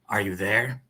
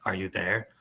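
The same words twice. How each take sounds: First: Lightly voiced criminal; a hint of a criminal voice. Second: Low, soft criminal voice. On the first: Reader starting the dealers' text exchange, lightly voiced criminal. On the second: Acted. Reader voicing green phone's arms dealer, low criminal voice. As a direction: ask it low and quiet like a criminal. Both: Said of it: "he'll be like the criminal voice".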